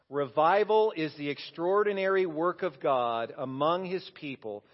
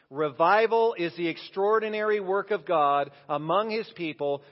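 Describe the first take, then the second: First: It is read in a plain, even voice. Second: It is read with strong, forceful energy. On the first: "I want you to read it with me" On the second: "like you mean it"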